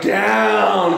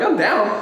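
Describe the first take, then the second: First: "down" drawn out long and heavy; exaggerated, leaned-on "down"; emphatic DOWN. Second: Said in the usual way. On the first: Shown as a demonstration. Exaggerated down against plain down.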